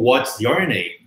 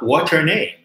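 First: What and is merge, other words stay separate. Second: All the words run together into one blend. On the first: "ou what's your name" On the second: "mas você falar what's your name?"

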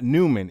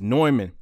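First: The name is pronounced the English way. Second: The name is pronounced the German way. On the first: The speaker calls it wrong. "Anybody pronounces it Neumann is a noob" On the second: The speaker calls it right. "it's Neumann, not Neumann. ... It's a German company, Neumann. That's how you pronounce it"

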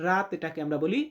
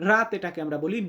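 The two takes are said the same way.

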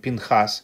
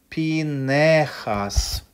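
First: The name has two syllables, no vowel after n. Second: The name has three syllables, an e after n. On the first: The speaker calls it wrong. "как мы обычно это делаем" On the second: The speaker calls it right. "мы обязаны произносить это грамотно"

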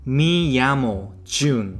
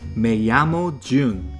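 First: The first word is said with an 'ee' vowel. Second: The first word is said with an 'eh' vowel. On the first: The speaker calls it wrong. "그걸 따라서 Mi llamo라고 하니까 그건 또 틀렸다고" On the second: The speaker calls it right. "발음을 Me llamo라고 해야 하는데"

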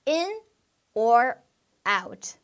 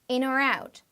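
First: Each word is said separately, without linking. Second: The words run smoothly together into one unit.

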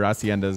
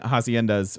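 First: The word starts without any h sound. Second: The word starts with an audible h sound. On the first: The speaker calls it right. "Or haciendas, sorry" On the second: The speaker calls it wrong. "I keep pronouncing the H"

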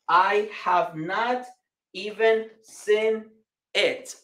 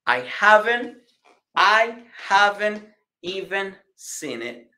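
First: Have not is said fully, words kept separate. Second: Have not is contracted and seen it is linked. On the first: "si somos de nivel inglés básico" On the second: "have not se une con have... se pronuncia así. Haven't... seen it, seen it"

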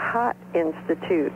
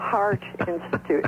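First: The r is dropped, so it sounds like 'hot'. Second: The r is pronounced clearly in 'heart'. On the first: "what she said was the Hot Institute" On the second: "And it was the Heart Institute"

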